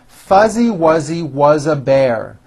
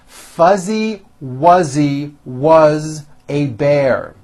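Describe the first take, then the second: First: The phrase is said at a faster pace. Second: The phrase is said at a slow pace. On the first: "a little bit faster" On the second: "both slowly"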